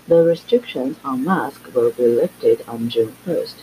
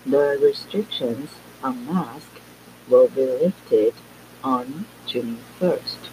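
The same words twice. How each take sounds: First: The sentence is spoken at normal speed. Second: The sentence is spoken slowly and deliberately. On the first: "先一样正常速度的" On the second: "慢速的来一遍"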